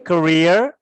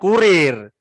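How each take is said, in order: First: The first vowel is a weak, reduced 'uh'. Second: The first vowel is a full, rounded 'oo'. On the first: The speaker calls it right. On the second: The speaker calls it wrong. "bukan kurir"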